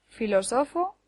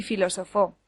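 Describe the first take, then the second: First: Filósofo turned into fi-lo-SO-fo; stress on third syllable. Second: Filósofo turned into fi-lo-so-FÓ; stress on last syllable. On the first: Teacher lists words that differ by accent, filósofo stressed on SO. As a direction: move the beat in filósofo onto SO. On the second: Teacher lists words that differ by accent, filósofo stressed on FÓ. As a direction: land on a final FÓ in filósofo. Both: Shown as a demonstration. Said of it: "Lo mismo ocurre con".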